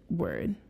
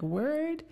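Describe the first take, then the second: First: The pitch falls at the end, like a statement. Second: The pitch rises at the end, like a question. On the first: It states something. "the other one's a statement" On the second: It asks something. "the first one's kind of like a question"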